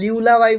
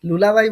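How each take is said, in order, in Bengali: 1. প্রথম সিলেবলটি 'lyoo'-এর মতো শোনায়। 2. প্রথম সিলেবলটি 'loo'-এর মতো শোনায়। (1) "অনেকে লিউলাবাই বলবে" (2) "অনেকে লুলাবাই বলবে"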